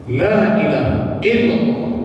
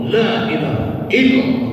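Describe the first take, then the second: The two takes are said the same way.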